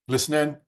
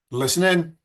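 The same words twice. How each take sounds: First: Said in the usual way. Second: Loud, high call to attention; raised calling voice. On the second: Shown as a demonstration. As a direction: call "listen in" out to the room.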